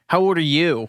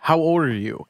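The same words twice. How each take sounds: First: It is said in Cecile's bratty, obnoxious voice. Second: It is said in a plain, neutral voice.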